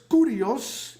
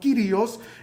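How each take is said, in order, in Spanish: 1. La palabra usa la pronunciación griega antigua. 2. La palabra usa la pronunciación griega más nueva. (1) "en la pronunciación antigua" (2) "en la pronunciación eh, eh, más nueva de, del griego"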